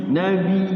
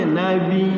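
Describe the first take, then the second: No difference in how they are said.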